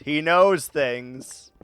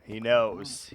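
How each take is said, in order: First: "knows" dragged out slowly and pressed; slow, knowing stress. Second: Said in the usual way. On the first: Shown as a demonstration. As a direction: lean on "knows" slowly, ominous.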